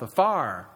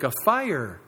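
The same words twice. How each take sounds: First: Southern US accent. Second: Said in the usual way. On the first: Shown as a demonstration. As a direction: fire in a Southern drawl, as one syllable "far". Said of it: "a single syllable word in the South". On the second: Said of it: "or a single syllable word in the South".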